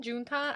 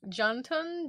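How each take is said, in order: First: "Juntan" softly as zhoon-TAHN, questioning rise; unsure second attempt. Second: "Juntan" higher, opening with sh, weak last vowel; unsure pronunciation. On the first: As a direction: try "Juntan" with oo, then ah. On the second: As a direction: try "Juntan" softly as SHAHN-tun. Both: Real, not acted. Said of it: "I'm mispronouncing".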